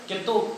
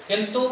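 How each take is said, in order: Both takes have the same delivery.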